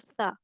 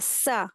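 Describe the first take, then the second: First: The s sound is soft, without a whistle. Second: The s sound is sharp and whistling. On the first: The speaker calls it right. "ये नरमी से अदा होता है" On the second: The speaker calls it wrong. "इसको सीटी के जैसे वो पढ़ते हैं"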